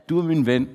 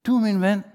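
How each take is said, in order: First: Said in the usual way. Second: "Du er min ven" repeated higher, stressing du; heartfelt higher repeat; emphatic repeat. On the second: Shown as a demonstration. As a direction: lift and lean on du.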